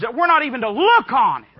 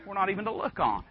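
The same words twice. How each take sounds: First: Loud, high-pitched insistence; emphatic preaching. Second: Softer, quicker, sober restatement; quiet repeat. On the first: Preacher to congregation on what the Bible says, emphatic and loud. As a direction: drive it home at high volume. Preacher driving the point home. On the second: Preacher lets the Bible's point sink in, quietly repeated. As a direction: drop it down soft and quick. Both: Real, not acted.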